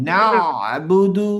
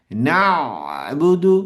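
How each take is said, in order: First: না বুদু with a throat catch before বুদু; ain held in throat. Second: না বুদু with the throat catching on the ain before বুদু; ain held in throat. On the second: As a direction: clamp the throat between না and বুদু. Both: Shown as a demonstration. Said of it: "আমি আইনটাকে ধরছি".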